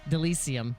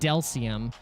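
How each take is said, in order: First: The vowel after 'Del' is pronounced. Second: The vowel after 'Del' is dropped. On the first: The speaker calls it right. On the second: The speaker calls it wrong.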